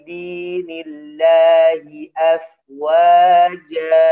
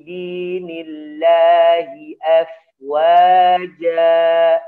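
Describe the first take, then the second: No difference in how they are said.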